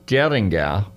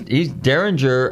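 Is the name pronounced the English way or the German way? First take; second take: German; English. First: The name is said with German sounds. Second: The name is said with English sounds. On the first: This is the original form of the name. "it's a German name, and it's Derringer, if you were to pronounce it" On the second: This is the changed, familiar form of the name. "he's Derringer"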